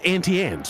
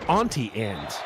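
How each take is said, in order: First: Auntie begins with a flat 'ant' vowel. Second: Auntie begins with a broad 'ahnt' vowel. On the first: The speaker calls it right. "Like the bug" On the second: The speaker calls it wrong. "you're saying it wrong then"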